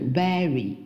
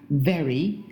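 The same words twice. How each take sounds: First: The V is made without teeth on the lip. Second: The V is made with teeth on the lip. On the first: The speaker calls it wrong. "不是very" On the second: The speaker calls it right. "对吧very"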